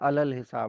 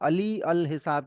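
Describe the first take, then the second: First: The 'ee' vowel before 'al' is silent. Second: The 'ee' vowel before 'al' is pronounced. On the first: The speaker calls it right. "यहाँ पे ई की sound नहीं आएगी" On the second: The speaker calls it wrong. "की जगह"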